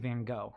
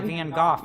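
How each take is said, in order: First: The name is said in the American way. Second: The name is said in a non-American way. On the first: "We say Van Gogh" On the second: "don't say Van Gogh either in America"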